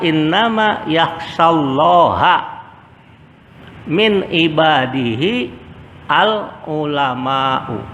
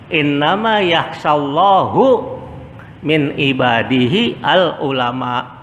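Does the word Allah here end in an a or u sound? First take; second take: a; u. First: Allah ends in a; the last word ends in u. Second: Allah ends in u; the last word is cut short. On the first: The speaker calls it right. "Padahal yang benar adalah" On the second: The speaker calls it wrong. "Dia baca apa? ... Dimatikan karena wah waqaf"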